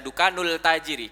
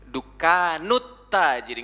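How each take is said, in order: First: The article keeps a clear l sound. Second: The article blends into a t sound. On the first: The speaker calls it wrong. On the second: The speaker calls it right.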